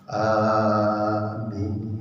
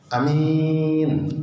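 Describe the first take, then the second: First: Both vowels are held long. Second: Only the second vowel is held long. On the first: The speaker calls it right. "Jadi yang betul a-nya panjang, min-nya juga panjang" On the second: The speaker calls it wrong. "Ada juga yang baca a-nya pendek, min-nya panjang"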